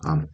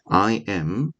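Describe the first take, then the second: First: The two words are contracted into one syllable. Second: Both words are said fully and separately. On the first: "한번 축약하면 I'm"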